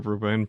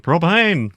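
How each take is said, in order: First: Said in the usual way. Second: High, loud cartoon-dad exclamation; indignant, emphatic drawl on PROPANE; Hank Hill impression. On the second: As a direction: cry it out as the only possible answer. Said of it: "what does Hank think".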